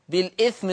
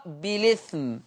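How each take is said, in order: First: "بالإثم" as bil-'ithm; original hamza. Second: "بالإثم" as bi-lithm; no glottal stop in "بالإثم"; hamza transfer. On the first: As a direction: glottal stop after the l in "بالإثم". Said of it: "بالإثم تقرأ". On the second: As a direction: run l into the i in "بالإثم". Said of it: "بشيل الهمزة وانقل الحركة". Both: Shown as a demonstration.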